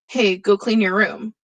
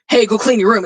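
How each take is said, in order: First: It is said in a calm, friendly tone. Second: It is said in a pushy, demanding tone. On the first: The listener is invited to do it. "you're probably gonna be a little bit more open to it" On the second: The listener is being ordered to do it now. "it's the way I'm saying it that changes the tone"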